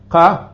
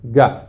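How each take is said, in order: First: It starts with a k-like sound from the throat. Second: It starts with a g-like sound. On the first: This is how it is said in southern Yemen. "שאני הוגה אותה בהגיעה של דרום תימן מעומק החך" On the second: This is how it is said in central and northern Yemen. "ובהגיעה של מרכז וצפון תימן"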